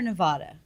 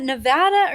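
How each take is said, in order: First: Nevada with middle a as in "father". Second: Nevada with middle a as in "cat"; short-a Nevada. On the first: Co-host asks host which is right, Nevada with open ah. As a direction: say "Nevada" as Ne-VAH-duh, open ah. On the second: Co-host asks host which is right, Nevada with short a. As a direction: say "Nevada" as Ne-VAD-uh, flat a. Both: Shown as a demonstration. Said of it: "is it Nevada or Nevada".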